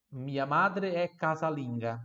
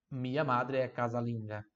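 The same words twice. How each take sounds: First: Slow, clear teacher reading; slow model sentence. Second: Said in the usual way. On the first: Shown as a demonstration. Teacher modelling for repetition, slowly. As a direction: say it slowly for the class to copy.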